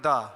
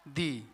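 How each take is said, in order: First: The vowel is a short 'uh' sound. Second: The vowel is a long 'ee' sound. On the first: The next word begins with a consonant sound. "इसको हम पढ़ेंगे दा" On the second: The next word begins with a vowel sound. "तो इसको दी पढ़ेंगे"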